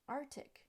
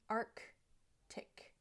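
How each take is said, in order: First: No K sound ends the first syllable. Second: A K sound ends the first syllable. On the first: The speaker calls it wrong. "the C is missing at the end of the first syllable" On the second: The speaker calls it right. "it should be Arctic"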